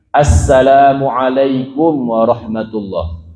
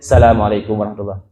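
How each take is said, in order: First: The greeting starts with a clear 'as' sound. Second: The greeting starts without the 'as' sound. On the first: The speaker calls it right. "Yang harus baca dengan sin" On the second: The speaker calls it wrong. "enggak boleh"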